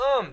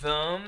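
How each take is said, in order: First: The 'th' sound is dropped, leaving 'um'. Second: The full 'th' sound is pronounced. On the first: "we can say them like um" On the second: "We can say them"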